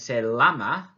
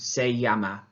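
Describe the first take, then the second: First: The double L is said like an English L. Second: The double L is said like an English Y. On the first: The speaker calls it wrong. "rather than saying se llama, which you might think is is um, is it in English" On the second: The speaker calls it right. "it needs to be the y sound"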